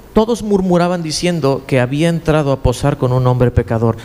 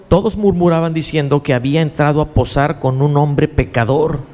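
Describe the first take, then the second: No difference in how they are said.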